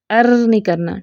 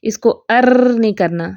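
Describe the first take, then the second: First: Said in the usual way. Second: ار with the ر trilled too long, as a wrong example; mock over-trilled ار; over-rolled r. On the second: Shown as a demonstration. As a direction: exaggerate the ر in ار to show the mistake. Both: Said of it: "جیسے ہم نے پڑھنا ہے ار".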